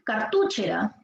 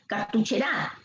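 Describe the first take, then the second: First: The stress is on the second syllable, tu. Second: The stress is on the last syllable, ra. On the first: "Si fuera en tu" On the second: "Si fuera en gra"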